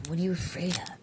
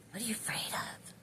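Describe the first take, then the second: First: Said in the usual way. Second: Breathy whispered question, higher pitch; whispering. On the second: Retold or imitated. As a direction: whisper it like a secret voice. Channeled message, repeated whispered.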